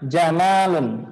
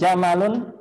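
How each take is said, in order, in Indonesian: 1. Vokal setelah m itu panjang. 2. Vokal setelah m itu pendek. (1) "kalau mimnya panjang" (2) "kalau misalnya tanpa mimnya nggak panjang"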